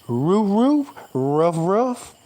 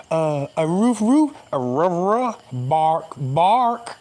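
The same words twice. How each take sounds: First: Dog barking. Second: Dog barking again. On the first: Showing viewers his dog language, mock barking. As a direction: bark like a small dog. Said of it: "I'm finna show it to y'all". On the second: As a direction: bark out a dog sentence. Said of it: "Somebody just tell me what I just said". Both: Shown as a demonstration.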